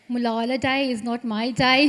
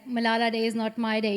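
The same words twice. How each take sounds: First: It is said in a Birmingham accent. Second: It is said in her normal accent.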